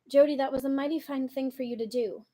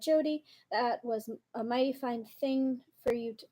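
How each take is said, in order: First: It is read in a standard, normal accent. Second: It is read in a Southern vernacular dialect.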